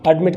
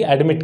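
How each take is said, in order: First: एडमिट said the correct way, stress on the second syllable; correct admit. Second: एडमिट said the wrong way, stress on the first syllable; wrong pronunciation of admit. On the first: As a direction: say एडमिट the right way, stressing the end. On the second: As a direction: say एडमिट the way learners get it wrong. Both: Shown as a demonstration. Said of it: "ना कि एडमिट कहेंगे".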